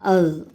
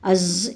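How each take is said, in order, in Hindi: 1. अंतिम व्यंजन नरम th की ध्वनि है। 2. अंतिम व्यंजन गूँजता हुआ z जैसा है। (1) "बल्कि अज़ अज़ अज़ इस तरीक़े से इसकी अदायगी होगी" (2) "इस तरीक़े से नहीं आएगी"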